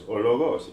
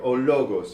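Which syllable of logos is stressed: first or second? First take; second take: second; first. First: The stress is on the second syllable of logos. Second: The stress is on the first syllable of logos. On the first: This is a hypothetical accent placement. "If the accent were on the other o" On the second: This is the real word. "the word"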